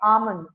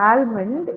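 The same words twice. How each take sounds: First: The L sound is silent. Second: The L sound is pronounced. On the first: The speaker calls it right. "You have to actually silence the L here" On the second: The speaker calls it wrong. "It is not almond"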